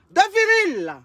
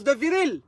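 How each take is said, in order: First: "De viril" hit high and emphatic. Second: Said in the usual way. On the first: Shown as a demonstration. ("De viril" appuyé, plus aigu)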